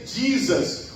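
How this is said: It is said with an American English accent. "Os americanos dizem"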